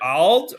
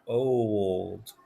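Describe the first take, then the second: First: The vowel is said as a short 'ah'. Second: The vowel is said as a long 'oh'. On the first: "O can say O or ah. So we can say ald" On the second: "it's a long O that time"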